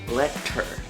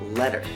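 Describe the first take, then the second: First: The middle consonant is a clear, strong T. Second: The middle consonant is a soft D-like flap. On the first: "it has a strong consonant sound, a T" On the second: "a softer consonant sound in the middle, and it sounds a little bit more like a D"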